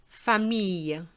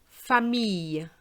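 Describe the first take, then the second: Both takes have the same delivery.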